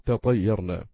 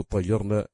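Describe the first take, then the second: First: تطيرنا with a separate taa before the emphatic Taa; original unmerged form. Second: اطيرنا with the taa merged into a doubled emphatic Taa; assimilated form. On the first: Teacher showing the word's origin, unassimilated pronunciation of تطيرنا. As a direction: say تطيرنا slowly, opening on a clear ta syllable. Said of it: "أصله". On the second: Teacher reading out the merged word form, assimilated pronunciation of اطيرنا. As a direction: say اطيرنا opening on a glottal vowel, then a held double Taa. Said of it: "أدغمت التاء في الطاء واجتلبت همزة وصل".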